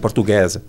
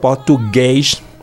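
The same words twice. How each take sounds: First: The final sound is a plain s. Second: The final sound is a sh. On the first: This is how most Brazilians say it. "el brasileño dice português" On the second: This is how people from Rio say it. "las ponen sh"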